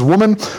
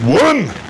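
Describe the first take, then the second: First: It is said softly and gently. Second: It is said sharply and harshly.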